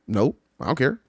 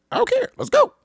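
First: Said in the usual way. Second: Very high, loud I DON'T CARE; mock fed-up insistence. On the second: Traveler insisting to companion, high, loud and exasperated. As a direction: shoot back I DON'T CARE, pitch leaping up. Acted bickering, insisting the second time.

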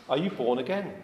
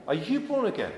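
First: Said in the usual way. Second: "born" lifted high and pressed, falling at the end; stress on born. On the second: Shown as a demonstration. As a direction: hit the word "born" higher, then let it drop.

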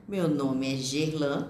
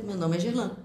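First: "Meu nome é Gerlan" drawn out slowly, each word spaced. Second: "Meu nome é Gerlan" rattled off quickly in one breath; very fast. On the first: Teacher contrasting speeds, saying "Meu nome é Gerlan" slowly. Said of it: "Você pode falar rápido". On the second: Teacher contrasting speeds, saying "Meu nome é Gerlan" very fast. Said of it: "Bem rápido". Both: Shown as a demonstration.

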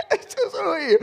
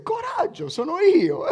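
First: Much higher, louder, laughing through it; preacher repeating Jesus's line to the congregation, excited; emphatic repeat. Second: Much higher, loud and laughing; Jesus calling to his frightened disciples, laughing; cheerful Jesus. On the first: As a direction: hammer it home with amusement. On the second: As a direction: play Jesus calling out cheerfully over the sea. Preacher voices Jesus, laughing. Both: Acted.

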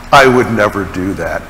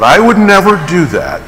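First: Low, understated self-assured denial; inner protest. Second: Raised pitch on "would never", then falling; emphatic denial. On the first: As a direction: say it low, as a private thought. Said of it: "Now you may think". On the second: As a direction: insist on "would never", higher than a private thought. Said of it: "I might think it, but". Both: Acted.

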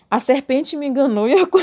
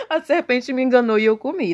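First: Reading that collapses into a laugh; breaking into laughter. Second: Said in the usual way. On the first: Real, not acted. Reading the Bible while drunk, laughing mid-line. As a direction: try to read but crack up. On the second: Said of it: "retake after laughing".

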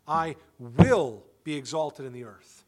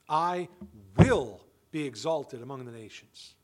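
First: "will" punched, the whole line louder; stress on WILL. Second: "I" hit hard and loud, then "will be exalted" drops low; stress on I. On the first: Preacher repeating the verse, leaning on "will". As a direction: drive "will" home, God's certainty. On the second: Preacher to congregation, stressing "I" in God's words. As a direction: lean on "I", God himself speaking. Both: Shown as a demonstration. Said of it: "That's where I put the emphasis here".

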